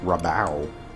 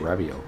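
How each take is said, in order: First: No 'ee' sound comes before the last vowel. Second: An extra 'ee' sound comes before the last vowel. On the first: The speaker calls it right. "It's probably just Rabao" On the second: The speaker calls it wrong. "I always say Rabio, but it's not. Toss in an I that's not there"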